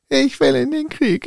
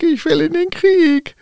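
First: High, eager tin soldier cry; toy soldier shouting. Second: Even higher, louder tin soldier yell; toy soldier shouting. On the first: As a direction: call out to go to war. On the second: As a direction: yell it as loud as you can. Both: Acted. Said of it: "rief der Zinnsoldat so laut, wie er nur konnte".

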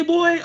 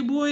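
First: Put-on "boy" pitched much higher and louder, drawn out with contempt; degrading boy. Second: Said in the usual way. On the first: Shown as a demonstration. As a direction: sneer the word "boy" to put someone down. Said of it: "How they say". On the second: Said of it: "how he say".

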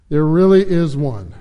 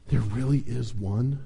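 First: Firm, assured confirmation; confirming. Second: Soft, lowered voice of wonder; breathed in awe. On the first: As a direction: confirm it as settled fact. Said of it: "confirmed Deep Thought". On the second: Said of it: "breathed Fuge". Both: A narrator's reading.

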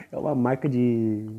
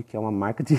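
First: Said in the usual way. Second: Rushed, laughing through the words; laughing at his own mix-up. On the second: Real, not acted. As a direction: giggle it out fast.

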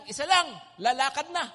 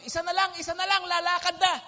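First: Louder barker call, pitch barely raised; barker's new call, "Isa lang" loud but without the high push; lighter mock barker call. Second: Higher, louder call of a bus barker; barker's old call, repeating "Isa na lang" loud and high; mock barker shout. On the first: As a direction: call out the new rule like a barker, less frantic. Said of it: "ang isisigaw na nila". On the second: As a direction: hawk the last seat like a barker hurrying riders on. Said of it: "Suma-, sumisigaw".

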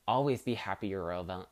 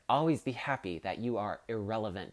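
First: "irrelevant" rushed and slurred to "elva", syllables dropped; fast mumbled "irrelevant" blurred to el-va; garbled word. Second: "irrelevant" said in full as ir-REL-e-vant, every syllable clear; deliberate retake with "irrelevant" fully sounded; careful correction. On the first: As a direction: trip over "irrelevant", swallowing its middle. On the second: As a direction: fix the slip, spelling out "irrelevant" carefully. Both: Shown as a demonstration. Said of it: "that is not a word".

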